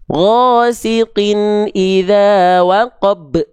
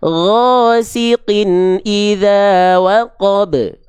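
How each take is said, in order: First: The final consonant is cut off with a stop. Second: The final consonant is released with a bounce. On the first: The speaker calls it wrong. "jangan sampai ada hamzah sukunnya" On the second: The speaker calls it right. "lempar pantulannya"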